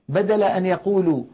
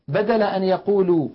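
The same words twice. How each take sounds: The two takes are said the same way.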